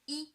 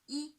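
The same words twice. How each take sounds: First: The pitch stays high and level, held long. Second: The pitch stays high and level, held long.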